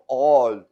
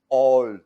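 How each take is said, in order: The two takes are said the same way.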